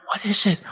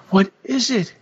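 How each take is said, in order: First: Higher husband voice asking gently; a worried husband, first ask; husband's voice. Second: Even higher, a bit louder, pleading; a worried husband begging the second time; husband's voice. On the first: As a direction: ask it high, with concern. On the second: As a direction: push the repeat up, more insistent. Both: Acted. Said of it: "he begged soothingly".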